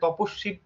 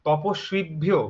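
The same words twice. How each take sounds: First: The v sound after the s is dropped. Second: The v sound after the s is clearly pronounced. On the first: The speaker calls it wrong. "বাংলায় যখন বলছি" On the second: The speaker calls it right. "বটা আমরা তপস্বী, এই সুই কথাটা খুব স্পষ্ট হচ্ছে"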